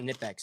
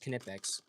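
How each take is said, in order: First: The initial K is silent. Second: The initial K is pronounced. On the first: The speaker calls it wrong. "it's not Nipbex" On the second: The speaker calls it right. "you do actually have to pronounce the K"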